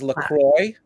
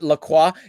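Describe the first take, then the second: First: Croix rhymes with enjoy, sounding like croy. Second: Croix is said the French way, like crwah. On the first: The speaker calls it right. "the proper way to pronounce that is LaCroix" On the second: The speaker calls it wrong. "not not La Croix, even though that's like closer to the French"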